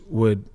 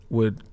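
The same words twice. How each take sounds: The two takes are said the same way.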